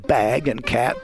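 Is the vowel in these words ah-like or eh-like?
ah-like. The vowel is a low, open ah sound. "instead of saying bag and cat"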